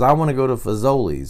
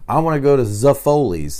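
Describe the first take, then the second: First: The restaurant name is pronounced the standard way. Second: The restaurant name is pronounced in a garbled way. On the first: The speaker calls it right. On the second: The speaker calls it wrong.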